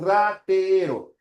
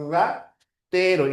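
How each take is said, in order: First: Ratero slowly with a trilled first r; rolled r. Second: Ratero slowly, strong trill on the first r; ratero, vibrante múltiple; rolled r. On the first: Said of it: "dense cuenta la diferencia en la pronunciación". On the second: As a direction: roll the r of ratero. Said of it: "múltiple". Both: Shown as a demonstration.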